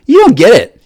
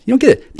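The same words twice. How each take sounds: First: "you" punched, falling tune on "You don't get it"; stress on you. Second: "get" hit hard in "You don't get it"; stress on get. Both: Real, not acted. Repeats the line, stress moves.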